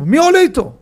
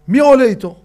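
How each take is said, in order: First: Higher and louder pleading call; urgent shout. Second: Higher, louder call. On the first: Repeated call for someone to ride along, louder. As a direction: shout it again, more urgent. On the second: Someone asking who rides with the child, loud call. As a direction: call out across the crowd. Calling for a volunteer. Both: Retold or imitated.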